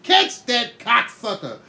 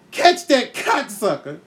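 First: Slow, raised shout of the movie line; mock movie shout. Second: Slow, raised quote of the line; mock movie shout. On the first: Kid quoting his favourite movie, slow mock shout. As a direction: bark it like the movie hero. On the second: Eight-year-old blurting the movie line, slow mock shout. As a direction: yell it out like the movie. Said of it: "So I say".

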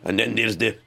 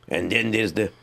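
The two takes are said the same way.

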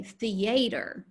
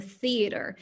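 First: "theater" as thee-AY-ter; Southern-style "theater", stressed on a long AY in the middle; stress on second syllable. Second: Said in the usual way. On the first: Shown as a demonstration. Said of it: "put emphasis on the unstressed syllable". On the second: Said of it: "they put emphasis on the unstressed syllable".

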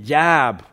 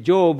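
First: "Jab" with an open ah vowel for Job; imitated American vowel in "Jab", drawn toward ah; American pronunciation, imitated. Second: "Job" with a long o, as in robe; British-style long o in "Job"; British pronunciation. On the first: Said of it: "He was saying, "Jab". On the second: Shown as a demonstration. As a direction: say "Job" the British way, rhyming with globe. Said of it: "he was not pronouncing it Job".

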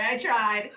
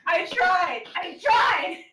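First: Said in the usual way. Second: Higher, louder, rising to a shout; laughing shout. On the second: Real, not acted. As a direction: yell it, cracking up. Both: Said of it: "couldn't keep a straight face".

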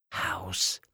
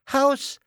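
First: Soft secret prompt to a friend; whispered. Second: Put-on high-pitched triumphant child's call. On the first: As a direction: slip the answer over under your breath. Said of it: "flüsterte Thomas Lilli zu". (leise zugeflüstert) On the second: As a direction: sing out the answer, high. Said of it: "rief Lilli". (laut und hell gerufen) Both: A narrator's reading.

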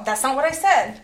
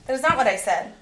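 First: Said in the usual way. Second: Not punched, is spelled out; stress on not. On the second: Shown as a demonstration. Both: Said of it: "repeats, stressing not".

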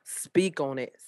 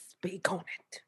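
First: Said in the usual way. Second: Breathy whispered echo; playful whispered echo to her friend. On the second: Pretend. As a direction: whisper it back teasingly. Repeats it as a whisper.

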